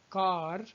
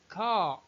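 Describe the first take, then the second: First: The final r sound is clearly pronounced. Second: The final r sound is dropped. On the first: "we pronounce r sound, as we say car" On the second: "in British English it would be pronounced as car"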